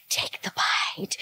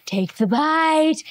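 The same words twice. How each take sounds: First: "Take the bite." breathed out slowly, with no voice; tempting whisper. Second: Said in the usual way. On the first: Retold or imitated. Imitating the tempter urging a bite, slow whisper. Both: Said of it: "This woman is like".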